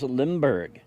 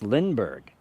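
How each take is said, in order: First: The name is said with an m sound. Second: The name is said with an n sound. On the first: The speaker calls it wrong. "I call him Charles Lindbergh" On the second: The speaker calls it right. "It's Lindbergh, I know"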